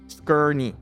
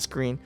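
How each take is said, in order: First: The name is said as two syllables. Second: The name is said as one syllable. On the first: The speaker calls it right. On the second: The speaker calls it wrong. "Not screen"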